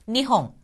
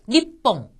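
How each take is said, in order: First: The middle sound is a soft breathy h. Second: The middle sound is a strong doubled p.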